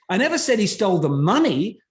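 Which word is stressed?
money. The word "money" carries the strongest stress. He stole something else. "what else did he steal at this point?"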